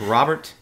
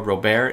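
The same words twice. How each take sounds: First: The name is said the English way. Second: The name is said the French way. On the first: The speaker calls it right. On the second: The speaker calls it wrong.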